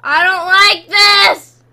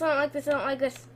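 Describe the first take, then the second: First: Loud, drawn-out wail of protest; loud scared protest; frightened shout. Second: Rapid, softer repetition; fast anxious run-on muttering; nervous babble. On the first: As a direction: yell it slowly, stretching the words. Scared outcry in horror game. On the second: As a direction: rattle it off fast, dropping in volume. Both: Real, not acted.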